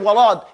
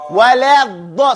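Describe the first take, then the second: First: The L is joined to the D. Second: The L is kept apart from the D. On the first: The speaker calls it wrong. "Some people say walad. It's not walad because the lamb has nothing to do with the, the da" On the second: The speaker calls it right. "it's wala da"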